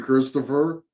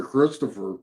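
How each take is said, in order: First: Said in the usual way. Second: Imitating the ghost's reply. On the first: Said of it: "Well, how old are you". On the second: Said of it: "we did get that very clear".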